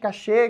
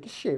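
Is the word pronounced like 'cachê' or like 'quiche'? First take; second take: cachê; quiche. First: The word is pronounced like 'cachê'. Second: The word is pronounced like 'quiche'. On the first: The speaker calls it wrong. "todo mundo fica falando" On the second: The speaker calls it right. "A pronúncia correta vem de francês"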